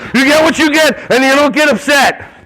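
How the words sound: It is said tensely in an irritated, annoyed tone. The adult is frustrated and venting. "your face is like, ... like you're thinking about your significant other?"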